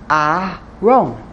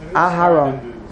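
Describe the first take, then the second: First: The h sound in the middle is silent. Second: The h sound in the middle is pronounced. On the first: The speaker calls it wrong. "You basically would pretty much not pronounce the hay" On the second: The speaker calls it right. "better do a regular Patach and pronounce his name Aharon"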